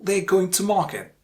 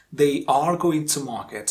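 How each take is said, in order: First: They're going to market with a weak, reduced are; weak form. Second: They are going to market with a full, strong are; strong form. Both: Shown as a demonstration. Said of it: "We are not pronouncing it".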